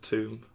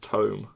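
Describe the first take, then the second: First: The vowel sounds like the one in room. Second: The vowel sounds like the one in dome. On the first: The speaker calls it wrong. "I just see T O M E and I pronounce that as Tomb" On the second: The speaker calls it right. "it's like dome"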